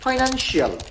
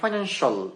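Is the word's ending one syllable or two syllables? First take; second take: two syllables; one syllable. First: The ending is said as two syllables. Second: The ending is said as one syllable. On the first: The speaker calls it wrong. "এটা ফাইন্যান্সিয়াল হবে না" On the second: The speaker calls it right. "এটা হবে ফাইন্যান্সিয়াল"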